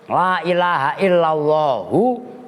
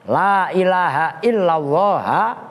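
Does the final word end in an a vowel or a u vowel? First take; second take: u vowel; a vowel. First: The last word ends with a u vowel. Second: The last word ends with an a vowel. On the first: The name is read as a substitute in the nominative. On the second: The name is read as an exception in the accusative. "istisna. Maksudnya dibaca nasab sebagai istisna"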